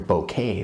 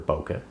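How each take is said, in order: First: It is said like the word 'bouquet'. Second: It is said as 'bokeh', not like 'bouquet'. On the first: "for those who like to say it that way" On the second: "but I prefer bokeh"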